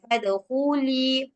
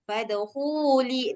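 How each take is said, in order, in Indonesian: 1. Vokalnya dipanjangkan dua ketukan. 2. Vokalnya dibaca pendek, satu ketukan.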